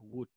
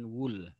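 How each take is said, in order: First: The word sounds like would, ending in D. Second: The word sounds like wool, ending in L. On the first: The speaker calls it right. "Yang benar adalah would" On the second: The speaker calls it wrong. "pelafalannya bukan wool"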